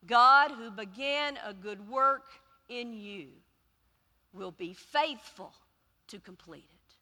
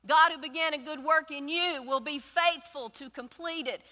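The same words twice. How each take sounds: First: Slow, solemn reading, fading at the end; measured scripture recitation. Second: Higher and louder declaration; preaching the verse at full force; proclaiming. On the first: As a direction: read it like holy words. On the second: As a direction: proclaim it to the church. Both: Acted. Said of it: "that goes like this".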